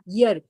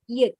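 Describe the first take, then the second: First: The word starts with a clear y sound. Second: The word starts directly with a vowel sound. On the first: The speaker calls it right. "Y E A R has a year sound" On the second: The speaker calls it wrong. "we call we pronounce this word as ear"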